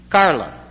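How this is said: It is said in a rural Brazilian Portuguese accent. "Como é que se fala Carla em Limeira?"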